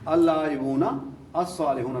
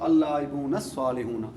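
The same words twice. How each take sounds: First: The two words are said separately. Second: The two words are linked together.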